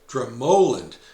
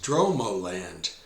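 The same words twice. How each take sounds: First: The stress is on the second syllable. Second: The stress is on the first syllable. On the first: The speaker calls it right. "it's actually pronounced Dromoland, with the emphasis on the second syllable" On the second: The speaker calls it wrong. "before our visit I was calling the place Dromoland"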